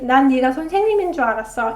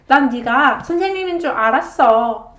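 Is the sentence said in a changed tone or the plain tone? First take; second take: plain tone; changed tone. First: The sentence is said in its plain tone. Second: The sentence is said in a changed tone. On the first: The speaker thought so, but no longer does. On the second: The speaker already knew it was a fact.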